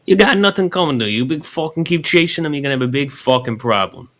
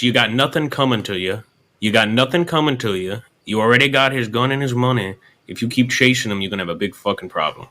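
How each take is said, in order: First: Higher, hammed-up Italian mobster accent. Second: Lightly put-on Italian mobster accent; a hint of Italian mobster menace. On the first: Showing him how to threaten, hammed-up Italian mobster. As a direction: push the Italian mobster act up high. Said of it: "Say it like that". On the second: Coaching a fella from Kentucky, lightly voiced Italian mobster. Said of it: "mobster style there". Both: Shown as a demonstration.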